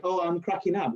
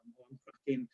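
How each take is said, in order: First: "Oh, I'm cracking up" said clearly and confidently; correct idiom. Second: "I'm, I'm cracking" said softer, trailing off unsure; garbled idiom. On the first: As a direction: land "cracking up" cleanly, as a native would. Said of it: "isn't it the way that you say". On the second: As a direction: fumble the idiom "cracking" quietly. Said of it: "see, I'm not even saying it right". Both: Shown as a demonstration.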